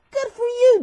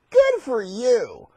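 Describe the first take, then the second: First: Much higher admiring coo; high-pitched praise. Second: Drawn-out congratulation at normal pitch; slow praise. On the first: Lions congratulating Daniel, high-pitched praise. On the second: Lions congratulating Daniel, slow and drawn out. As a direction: stretch each word of the praise. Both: Acted.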